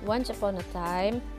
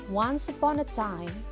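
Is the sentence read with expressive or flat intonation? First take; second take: flat; expressive. First: The pitch stays mostly level through the sentence. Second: The pitch moves expressively through the sentence. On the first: The speaker calls it wrong. "kalau cara membaca kalian masih seperti ini" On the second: The speaker calls it right. "penggunaan intonasi yang tepat untuk kalimat yang pertama adalah kurang lebih seperti ini"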